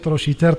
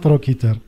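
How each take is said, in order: First: The 'ch' is said as a 'sh' sound. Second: The 'ch' is said as a 'k' sound. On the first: The speaker calls it right. "il a prononcé trochiter, trochin. Ce que je vois, il est plus correct" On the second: The speaker calls it wrong. "C'est ce qu'on a l'habitude de prononcer tout au long de ma vie"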